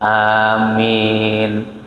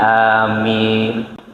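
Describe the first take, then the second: No difference in how they are said.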